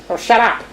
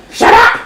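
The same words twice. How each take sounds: First: Softer first telling-off; irritated mutter. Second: Harsher second telling-off; mock-angry, rasped repeat; irritated snap. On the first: Acted. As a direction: brush the baby off under your voice. Punch answers crying baby. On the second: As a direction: snap it harder at the baby. Punch repeats it at baby.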